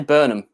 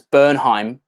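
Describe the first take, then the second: First: The name ends with a short 'um' sound. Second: The name ends with a 'hime' sound. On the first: This is the speaker's own habitual way of saying it. "for some reason I just want to say Burnham" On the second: This is how it is said in the US. "you guys pronounce it in the U S as Bernheim"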